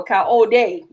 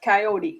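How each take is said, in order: First: "coyote" said kai-oh-DAY; alternative pronunciation. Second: "coyote" said kai-OH-dee; common pronunciation. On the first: Host offering the other way to say the name, alternative pronunciation. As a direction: say "coyote" ending in a "day" sound. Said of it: "that's how you say it". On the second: Host repeating how most people say it, common pronunciation. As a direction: say "coyote" ending in a "dee" sound. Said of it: "most people say coyote". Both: Shown as a demonstration.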